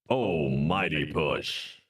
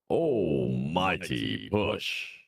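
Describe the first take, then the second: First: The phrase is said at a quicker pace. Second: The phrase is said at a slower pace.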